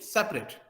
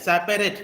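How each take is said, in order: First: The middle vowel is dropped entirely. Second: The middle vowel is fully pronounced. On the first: The speaker calls it right. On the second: The speaker calls it wrong.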